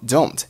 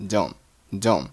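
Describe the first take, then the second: First: Said in the usual way. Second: "don't" ending on the n, like "don"; unreleased final t. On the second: Shown as a demonstration. Teacher showing learners dropped t, "don't" said as "don'". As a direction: say "don't" without releasing its t. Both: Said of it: "don't结尾的t没有爆出来".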